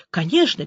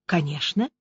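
First: Said in the usual way. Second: Calm, soft and low "Конечно". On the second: A narrator's reading. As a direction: answer evenly, unbothered. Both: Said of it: "спокойным голосом ответила Аня".

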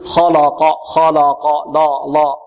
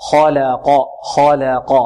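First: خلق with the l darkened, like 'khaw-law-qaw'; all three syllables of خلق heavy; heavy laam. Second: خلق with heavy kh and q, thin laam; measured خلق alternating dark, light, dark. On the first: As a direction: mistakenly thicken لا between kh and q. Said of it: "نحذر من تفخيم ماذا". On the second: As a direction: thicken خ and ق, keep 'la' light. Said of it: "واللام مرققة". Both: Shown as a demonstration.

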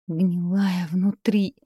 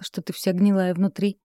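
First: Slow, pained inner groan. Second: Said in the usual way. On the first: A narrator's reading. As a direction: drag it out, wounded. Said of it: "мысленно застонала Катерина". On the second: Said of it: "Нина прикусила язык".

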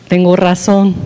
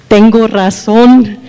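First: Said in the usual way. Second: "Tengo razón" said slower and louder, stressed on "razón"; stubborn husband, louder. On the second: Retold or imitated. Wife mimicking her husband's stubborn insistence, louder and slower. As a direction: dig in on "Tengo razón", drawn out and firm. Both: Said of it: "me hace".

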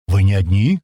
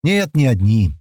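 First: A question rising on «одни». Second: Firm falling statement, weight on «Нет»; answering. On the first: Иван asks the newcomers whether others are there, questioning. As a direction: ask it with a rise on «одни». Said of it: "спросил Иван". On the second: Newcomer answers Иван's question, stating it plainly. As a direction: state «не одни» with a falling end. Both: Acted.

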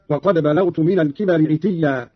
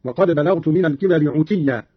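First: Said in the usual way. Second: "عتيا" pronounced utiyya; u in place of i opening "عتيا"; damma on ayn. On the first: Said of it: "بضم العين". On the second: Shown as a demonstration. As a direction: recite "عتيا" with u after the ayn. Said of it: "قرأ قالون بضم العين هكذا".

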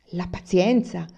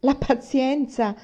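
First: Louder indignant echo of "pazienza"; "pazienza" thrown back in outrage; wife repeating the word with scorn; indignant exclaim. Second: "La pazienza!" drawn out slowly, higher and louder; wife's second, angrier echo; slow outraged repeat. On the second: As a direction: spell out "pazienza" in scorn. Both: A narrator's reading. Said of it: "esclamò mamma".

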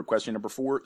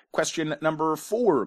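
First: Said in the usual way. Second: Higher, playfully big quiz-host announcement; hammed-up announcement. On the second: Quiz host introducing question four, hammed-up announcement. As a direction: announce the question with mock grandeur.

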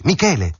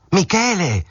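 First: A high call down the street; calling out again. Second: Much higher, stretched-out shout of the name; desperate last shout after him; shouting more forcefully. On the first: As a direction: call his name after him. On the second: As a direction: call out with everything you have. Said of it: "gridò con più forza". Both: A narrator's reading.

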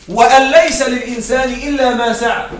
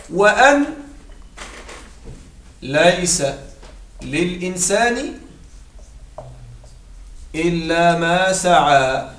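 First: Said in the usual way. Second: Slow, drawn-out chanted recitation of the verse; Quranic recitation. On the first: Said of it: "repeats verse plainly". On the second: Shown as a demonstration. Teacher reciting a Quran verse to students, slow and drawn out. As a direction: recite the verse slowly, word by word.

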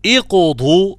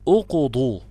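First: اقضوا begun with i, slow and clear; اقضوا said slowly as iqdu; with kasra. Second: اقضوا begun with u, marked wrong; اقضوا with u at the start; wrong pronunciation. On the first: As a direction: stress the i of اقضوا. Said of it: "اقضوا بالكسر". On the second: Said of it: "غلط". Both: Shown as a demonstration.

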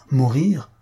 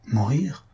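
First: Louder, strangely intent repeat; strange accent of emotion. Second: Questioning echo. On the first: Suitor repeats her word as he rises, strangely intent. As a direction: repeat it with odd, heightened emphasis. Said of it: "avec un accent étrange". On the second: Suitor echoes the countess's word back, questioning. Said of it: "répéta-t-il". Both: A narrator's reading.

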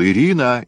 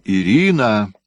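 First: A loud call across the garden, higher. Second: A second loud call of her name; calling out again. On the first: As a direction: call her name out loud, half-shouted. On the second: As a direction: shout the name once more across the garden. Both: A narrator's reading. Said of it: "Фёдор крикнул".

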